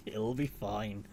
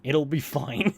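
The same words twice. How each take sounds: First: Drawn out slowly and softly; a slow, hushed It'll be fine; slow, quiet reassurance. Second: Said in the usual way. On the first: Shown as a demonstration. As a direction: ease it out, half to yourself. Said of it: "repeated slower and softer". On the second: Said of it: "repeated reassurance, first take".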